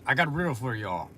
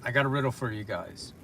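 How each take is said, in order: First: Quick, run-together delivery; said kinda fast. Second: Said in the usual way. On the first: Real, not acted. Streamer announcing a riddle to viewers, kinda fast. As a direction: rush through the line. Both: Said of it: "I said that kinda fast".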